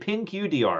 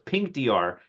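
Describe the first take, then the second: First: The first part is said as two syllables. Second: The first part is said as one syllable. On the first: The speaker calls it wrong. "did I did pin Q D R, and I'm like, what does pin Q mean?" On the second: The speaker calls it right. "But no, it's Pink D R"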